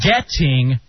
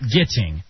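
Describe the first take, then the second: First: The first vowel sounds like the e in bet. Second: The first vowel sounds like the i in bit. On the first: The speaker calls it right. "It's getting" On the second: The speaker calls it wrong. "not getting"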